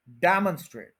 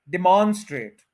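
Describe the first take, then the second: First: "demonstrate" as DEM-un-strate; first-syllable stress. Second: "demonstrate" as di-MAUN-strate, loud long middle syllable; mispronounced, long middle. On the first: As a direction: hit DEM, shrink the middle of "demonstrate" to a schwa. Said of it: "stress देना है डैम पे". ("Demonstrate" में डैम पर ज़ोर, बीच में छोटा अन) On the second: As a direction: stretch and stress मौन in "demonstrate". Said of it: "मौन को हम ज्यादा लंबा कर रहे हैं". ("डेमोन्स्ट्रेट" में मौन लंबा और ज़ोरदार) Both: Shown as a demonstration.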